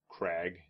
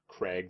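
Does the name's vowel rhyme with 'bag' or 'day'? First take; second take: bag; day. First: The vowel is a short 'a' sound. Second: The vowel is a long 'ay' sound. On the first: The speaker calls it right. "like a piratey way to spell and pronounce a rocky outcropping" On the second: The speaker calls it wrong. "Not Craig, like C R A I G"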